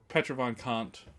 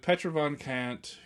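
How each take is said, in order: First: The name is said with a German-like pronunciation. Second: The name is said with an English pronunciation. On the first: The speaker calls it right. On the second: The speaker calls it wrong.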